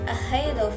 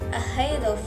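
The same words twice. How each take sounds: First: The two words are linked together. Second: The same.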